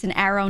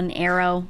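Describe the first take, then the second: First: ARROW with a short flat "a" as in cat; own regional pronunciation. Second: ARROW said like "error"; rejected pronunciation. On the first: Streamer correcting others' vowels, Northeastern pronunciation. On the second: Streamer showing the wrong way, mimicked pronunciation. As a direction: merge arrow's first vowel into "air". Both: Shown as a demonstration. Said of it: "not an arrow".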